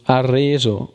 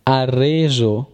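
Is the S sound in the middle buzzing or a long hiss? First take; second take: buzzing; buzzing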